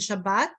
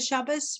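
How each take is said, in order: First: The word ends with a t sound. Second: The word ends with an s sound. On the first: "rather than Shabbat" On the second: "Don't they say Shabbos"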